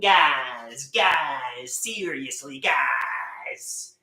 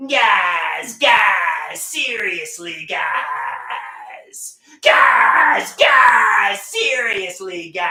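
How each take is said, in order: First: Said in the usual way. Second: Yelling guys louder each time; shouting. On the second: Acted. Yelling at his friends to get their attention. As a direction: bellow it across the room.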